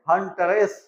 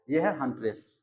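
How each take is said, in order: First: हंटरेस said with the extra vowel, hun-ter-ess; the clumsy take of हंटरेस, hun-ter-ess; wrong pronunciation. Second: हंट्रेस said smoothly as hun-tress; the smooth take of हंट्रेस, hun-tress; right pronunciation. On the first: Teacher showing the hard form, hun-ter-ess. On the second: Teacher giving the smooth form, hun-tress. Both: Shown as a demonstration. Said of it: "pronunciation है वो smooth हो गया".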